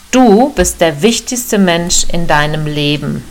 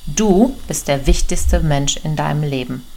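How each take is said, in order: First: Du stressed and louder, each word weighed; emphatic key message. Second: Said in the usual way. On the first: Shown as a demonstration. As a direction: land the big point, hitting du. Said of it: "und jetzt kommt's". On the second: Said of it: "Also nochmal".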